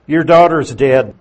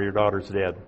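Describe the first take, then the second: First: Loud, blunt blow of bad news; blunt announcement. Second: Blunt, final. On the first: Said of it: "Now notice how blunt this message is". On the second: Retold or imitated. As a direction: lower and softer, a flat dead end. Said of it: "is that blunt or what?".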